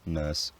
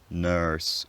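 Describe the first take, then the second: First: No r sound follows the vowel. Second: An r sound is heard after the vowel. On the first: This is a non-rhotic pronunciation. "I say" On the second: This is a rhotic pronunciation. "I don't say"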